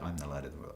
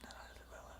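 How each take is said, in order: First: It is spoken in a full voice. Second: It is whispered without full voice.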